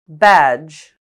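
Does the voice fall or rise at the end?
fall. The pitch falls at the end.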